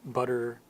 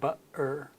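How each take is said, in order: First: The middle consonant is a quick D sound. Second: The middle consonant is a glottal stop. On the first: This is how Americans say it. "We turn it into almost a D sound" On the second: This is how a Cockney speaker says it. "it's a stop of the voice"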